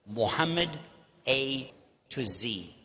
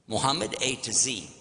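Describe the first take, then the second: First: Slow careful spelling-out. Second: Said in the usual way. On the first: Shown as a demonstration.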